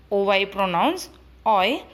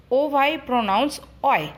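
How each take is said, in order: First: "oi" said lower, rising at the end; rising repeat. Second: "oi" said on a falling tune; falling statement. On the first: Teacher repeats the rule for pupils, rising. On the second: Teacher introduces the OY sound, falling tune. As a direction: state it and let "oi" drop. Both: Shown as a demonstration.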